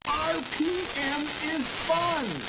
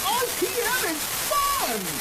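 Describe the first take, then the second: First: It is said plainly, with little energy. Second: It is said with energy and excitement.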